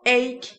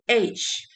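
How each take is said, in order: First: The word ends with a strong K sound. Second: The word ends with a soft J-like sound. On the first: The speaker calls it right. "That ch has to strong K sound" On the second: The speaker calls it wrong. "Many people say age, and that's wrong"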